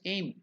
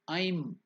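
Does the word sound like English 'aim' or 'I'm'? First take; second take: aim; I'm. First: The vowel sounds like the English word aim. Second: The vowel sounds like the English word I'm. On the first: The speaker calls it wrong. "you can pronounce it also as aim" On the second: The speaker calls it right. "it has to be pronounced as I'm"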